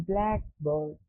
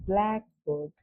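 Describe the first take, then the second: The two takes are said the same way.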